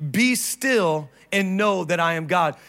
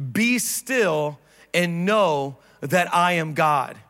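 First: Said in the usual way. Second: Slow reading. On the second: Acted. Pastor reading scripture with the church, slow and measured. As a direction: read "Be still and know that I am God" slowly and deliberately. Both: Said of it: "Let's read it together".

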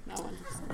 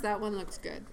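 First: Hushed, breathy come-on whisper; sultry voice. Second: Said in the usual way. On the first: Shown as a demonstration. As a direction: purr it low and seductive. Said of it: "we've been practicing our sultry voice".

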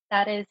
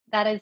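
Both takes have the same delivery.

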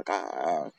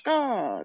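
First: Low, softer answering caw; crow's response. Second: High, falling crow caw; crow's call. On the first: Crows talking to each other, low answering caw. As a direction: answer as the second crow, dropped down low. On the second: Crows talking to each other, high calling caw. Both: Shown as a demonstration. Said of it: "like a call and response".

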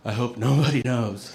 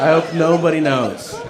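First: Said in the usual way. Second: Laughing repeat. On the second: Retold or imitated. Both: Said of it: "That's the only thing I'm thinking".

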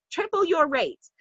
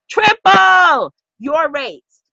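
First: "Triple your rates" dropped to a soft, higher murmur; soft repeat. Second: TRIPLE stretched out slowly and called loud; emphatic triple. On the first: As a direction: let the listener feel it, softly. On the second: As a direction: hammer "triple your rates" slowly, word by word. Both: Shown as a demonstration. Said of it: "Feel it".

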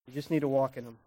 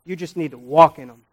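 First: Much softer, almost hushed echo; quiet echo of the last line; soft repeat. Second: Said in the usual way. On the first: Shown as a demonstration. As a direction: let the line sink in gently. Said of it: "repeated after plain take". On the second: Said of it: "repeated softer".

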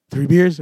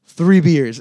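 First: Questioning. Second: Loud, falling, matter-of-fact; flat statement. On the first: Friend ordering drinks. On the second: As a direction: say it like it's settled. Coach repeats order, unbothered. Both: Retold or imitated.

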